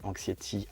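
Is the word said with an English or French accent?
French. The word is said with French pronunciation.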